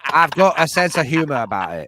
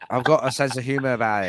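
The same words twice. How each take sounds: First: Put-on American accent. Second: Fast, put-on American accent. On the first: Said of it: "your one American accent part". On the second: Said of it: "turn on that fucking American shit".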